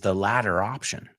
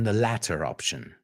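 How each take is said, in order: First: American accent; the t sounds like a d. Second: British accent; the t is a crisp t. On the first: "como americanos pronunciamos esa T como D" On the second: "a British person would say"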